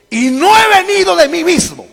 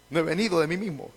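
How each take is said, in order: First: High, loud proclamation; crying out. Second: Soft, quick repeat; quiet restatement. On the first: Preacher quotes what they did not understand, loud cry. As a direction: lift the voice and declare it forcefully. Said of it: "Y dice". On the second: Preacher restates the verse for the congregation, soft and quick. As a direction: say it back softly, almost to yourself. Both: Acted.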